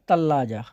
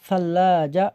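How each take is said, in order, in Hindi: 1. यह शब्द T की आवाज़ से शुरू होता है। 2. यह शब्द S की आवाज़ से शुरू होता है। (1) "ता करके बोल सकते हो" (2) "सा करके बोल सकते हो"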